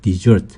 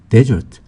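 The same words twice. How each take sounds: First: The stress is on the second syllable. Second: The stress is on the first syllable. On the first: It means to abandon or run away. "강세가 뒤에 있으면 desert 하면은 어, 버리는 거" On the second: It means a dry sandy region. "강세가 앞에 있으면 desert 하면 사막이 되고요"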